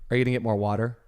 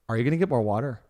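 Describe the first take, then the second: First: The question ends with a plain, ordinary intonation. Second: The question ends with a distinctive regional intonation. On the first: This is how the person asked questions before moving. "when you lived in Mount Vernon and when I first met you, you would have said" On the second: This is how the person asks questions after moving. "Now it has become"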